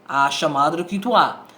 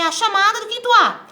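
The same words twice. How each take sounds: First: The voice is pitched low. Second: The voice is pitched high.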